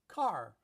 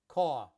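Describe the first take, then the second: First: Los Angeles accent, with the final r pronounced. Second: Queens New York accent, with no final r. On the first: "I pronounce the R" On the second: "In Queens, in New York, it's caw"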